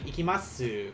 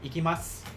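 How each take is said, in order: First: The final u is clearly voiced. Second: The final u is nearly silent. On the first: "Instead of like" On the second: "that last u is more aspirated and not really pronounced"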